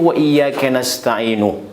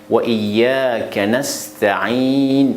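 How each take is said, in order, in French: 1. Le dernier mot se termine par une voyelle u ajoutée. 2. Le dernier mot se termine par un son n sans voyelle. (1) "On ne peut pas dire" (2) "si on s'arrête ici, on s'arrête sur sukun. On dit"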